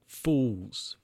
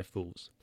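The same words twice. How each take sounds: First: A lightly voiced, drawn-out smug "Fools"; smug sneer. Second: "fools." dropped low and much softer, under the breath; muttered aside. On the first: Jack sneering at co-workers running to meters. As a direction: dismiss them with mild contempt. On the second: Retold or imitated. Jack muttering at co-workers, much softer. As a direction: toss it off quietly to yourself.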